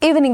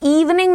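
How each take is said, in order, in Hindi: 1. पहला स्वर छोटा और हल्का है। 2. पहला स्वर लंबा और भारी है। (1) "that's light ई एवरीवन" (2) "इवनिंग नहीं है वो"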